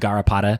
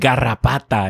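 First: The word has a plain English R. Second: The word has a rolled R, Spanish style.

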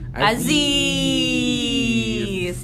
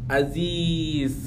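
First: The i vowel is stretched out very long. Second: The i vowel is held for a short beat. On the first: "Kalau 6 harokat berarti Aziz" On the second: "2 harokat itu jadi lu ngebacanya Aziz gitu"

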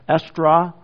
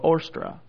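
First: The word begins with an E vowel. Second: The word begins with a long O vowel. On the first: "you might pronounce that Estra" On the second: "sometimes just give us the long O"

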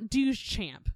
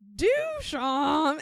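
First: The name is said short and plainly. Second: The name is drawn out like a donkey's bray. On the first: The speaker calls it wrong. "it's not Duchamp" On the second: The speaker calls it right. "think of it as the bray of a donkey"

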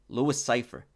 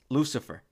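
First: The name is said slowly as two words. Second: The name is said fast as one word.

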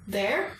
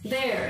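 First: The pitch rises like a question. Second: The pitch stays high and level. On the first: He is asking what is there. "That's the second tone" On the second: He is pointing something out. "that would be the first tone"

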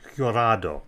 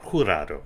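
First: The name begins with an English J sound. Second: The name begins with a throaty H sound. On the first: The speaker calls it wrong. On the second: The speaker calls it right.

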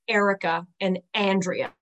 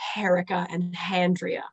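First: The names begin directly with their vowels. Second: The names begin with an added h sound.

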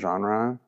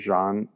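First: The word is said with an ordinary English pronunciation. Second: The word is said with a French-like pronunciation.

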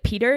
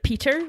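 First: The middle consonant sounds like a soft d. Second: The middle consonant sounds like a clear t. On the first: The speaker's accent has picked up a Canadian habit. "my T's turn to D's sometimes. So I'll say like Peter" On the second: This is the speaker's original accent. "instead of Peter"

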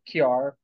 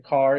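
First: The word is said with a 'ky' sound. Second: The word is said in a standard accent. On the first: "you say kiar" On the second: "you don't say car"

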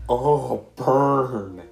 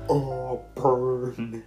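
First: It is said louder. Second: It is said at normal, softer volume.

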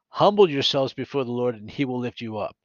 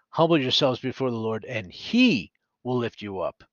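First: The word 'he' is not stressed. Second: The word 'he' is stressed.

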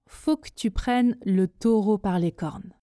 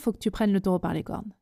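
First: The sentence is spoken slowly. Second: The sentence is spoken very fast. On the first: "Prononçons la phrase ensemble lentement" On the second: "on y va à la vitesse express"

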